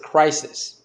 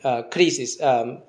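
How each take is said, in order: First: The word is said with an English pronunciation. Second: The word is said with a Greek pronunciation. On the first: "if you read it in English, you would pronounce it crisis" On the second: "that's the word for judgment, krisis"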